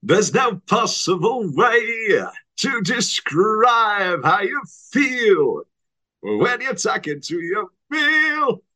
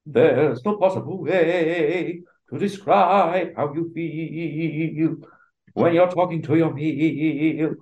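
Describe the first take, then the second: First: Slow, higher, louder Bowie croon; [name] impression. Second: Slow, higher musical-theatre belting; sing-speak it like a Broadway star; Hugh Jackman impression. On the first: Bowie playing the wolf, hammed-up slow croon. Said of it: "[name] as the wolf". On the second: Jackman as the wolf, slow hammed-up belt. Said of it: "Hugh Jackman".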